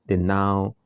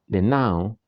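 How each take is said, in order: The two takes are said the same way.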